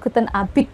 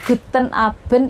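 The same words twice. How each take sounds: First: It is said in a Swiss German accent. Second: It is said in a Standard German accent. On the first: "kalau di Swiss itu" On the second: "bahasa Jermannya"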